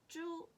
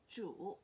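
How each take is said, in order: First: The pitch stays high and level. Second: The pitch dips low and then rises.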